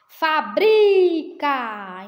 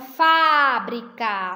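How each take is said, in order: First: The stress is on the middle syllable. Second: The stress is on the first syllable. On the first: It is the verb form. "Então é um paroxítona, né? Uma paroxítona, o bri" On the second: It is the noun meaning factory. "A sílaba tônica está no início da palavra"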